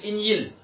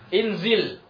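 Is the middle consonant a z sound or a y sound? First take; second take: y sound; z sound. First: The middle consonant is a y sound. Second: The middle consonant is a z sound. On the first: The speaker calls it wrong. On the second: The speaker calls it right.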